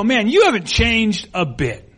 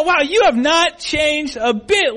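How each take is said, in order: First: Friendly surprised compliment, slowly drawn out; complimentary. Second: High, slow, emphatic mock amazement; backhanded compliment. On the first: Acted. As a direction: greet an old classmate with mild amazement. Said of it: "sometimes that's a compliment". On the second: To someone from high school, pointedly unflattering. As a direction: stretch it out as an incredulous dig. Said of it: "it really wasn't a compliment".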